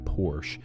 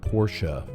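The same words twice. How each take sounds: First: It is said with an American pronunciation. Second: It is said with a German pronunciation. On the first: "the American Porsche" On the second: "the German Porsche"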